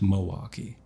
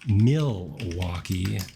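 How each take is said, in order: First: The name has a local Wisconsin pronunciation. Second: The name has a standard, general pronunciation. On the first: The speaker calls it wrong. "I pronounce it uh, the Wisconsin way" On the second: The speaker calls it right. "but it is Milwaukee Art Museum"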